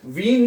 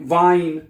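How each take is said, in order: First: The vowel sounds like 'ee'. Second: The vowel sounds like 'eye'. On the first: The speaker calls it wrong. "वीन नहीं पढ़ना है इसको" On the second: The speaker calls it right. "वाइन पढ़ना है आपने"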